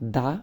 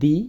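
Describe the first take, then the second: First: The word 'the' is said with a short 'uh' vowel. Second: The word 'the' is said with a long 'ee' vowel. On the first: The next word starts with a consonant sound. "দি এর পর যদি consonant sound থাকে এর উচ্চারণ দা এর মতো হবে" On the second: The next word starts with a vowel sound. "দি এর পর যদি ভাওয়েল সাউন্ড থাকে এর উচ্চারণ দি এর মতো হবে"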